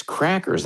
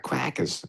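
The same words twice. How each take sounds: First: "crackers" with both R's sounded, pitched high; "crackers" corrected, high and clearly pronounced; standard pronunciation. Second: "quackers" with W for R and no final R; "quackers" mimicking the Philadelphia accent. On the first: Shown as a demonstration. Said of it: "not quackers". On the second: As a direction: say "crackers" the Philly way, as "quackers". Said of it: "I never got that accent".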